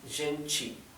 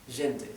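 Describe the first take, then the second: First: The t is pronounced like a 'ch' sound. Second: The t is pronounced as a plain t. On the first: This is how most of Brazil says it. "la T, no se pronuncia T, se pronuncia chi" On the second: This is how a few regions say it. "pronuncian más bien como en español"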